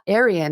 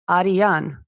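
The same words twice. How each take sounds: First: It is said the usual English way. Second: It is said as two parts, Ari-yan. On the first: The speaker calls it wrong. "the way we say it's it's not Aryan" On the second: The speaker calls it right. "it's Ari, Aryan"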